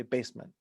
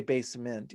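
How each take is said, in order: First: "basement" stressed on BASE, weak ending; natural stress. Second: "basement" with a full, stressed second syllable; wrong stress. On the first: Songwriter showing everyday speech, "basement" as BASE-m'nt. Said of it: "you say basement". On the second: Songwriter showing what nobody says, "basement" as base-MENT. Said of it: "You never say basement". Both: Shown as a demonstration.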